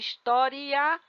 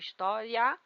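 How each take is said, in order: First: The i is a full vowel before the a. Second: The i glides quickly into the final a. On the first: The last two vowels are separate syllables. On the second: The last two vowels form one syllable. "de tongo crescente"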